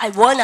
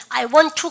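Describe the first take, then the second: First: "wanna" in place of "want to", no t sounds; casual contracted "wanna"; shortened form. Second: Said in the usual way. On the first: Shown as a demonstration. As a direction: slur "want to" into a quick "wanna". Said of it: "shortened 시작". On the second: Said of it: "줄임명 쓰는 걸".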